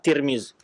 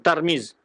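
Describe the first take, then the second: First: The first syllable has the vowel i. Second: The first syllable has the vowel a. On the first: "hanya dengan kasrah ta" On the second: "Fathu ta ya wa kasim"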